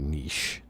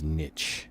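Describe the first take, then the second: First: The word is said in a French-style way. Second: The word is said in a plain English way. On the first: The speaker calls it right. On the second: The speaker calls it wrong.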